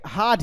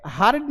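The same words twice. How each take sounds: First: हार्ड as "haad", no R; silent R. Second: हार्ड with the R sounded; wrong pronunciation demo. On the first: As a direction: drop the R in हार्ड, long vowel into the stop. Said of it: "र तो pronounce होता ही नहीं है". (हार्ड को बिना र के "हाड" बोलें) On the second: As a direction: roll the R into the D in हार्ड. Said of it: "ये हार्ड नहीं है". (हार्ड में र साफ़ बोलें) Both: Shown as a demonstration.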